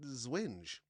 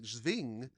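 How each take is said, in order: First: The W is said as a W sound. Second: The W is said as a V sound. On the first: The speaker calls it right. "but no, I think it's he pronounced it Zwinge" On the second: The speaker calls it wrong. "do the W as like a V sound. Like German"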